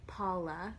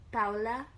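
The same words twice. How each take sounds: First: Paula with an open AH, like "PAH-la"; alternative pronunciation. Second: Paula with OW in the first syllable; first pronunciation. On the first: Host second-guessing viewer's name, alternative pronunciation. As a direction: say Paula slowly with a long first vowel. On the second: Host reading viewer's name, first pronunciation. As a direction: say Paula as "POW-la", louder. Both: Shown as a demonstration. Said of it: "so many ways to pr".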